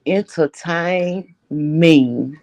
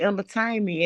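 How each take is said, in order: First: Very slow "Entertain me", each word stretched; drawn-out demand. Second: Said in the usual way. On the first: Real, not acted. Co-host relishing the gossip, slow emphatic "Entertain me". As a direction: draw out "Entertain me" syllable by syllable.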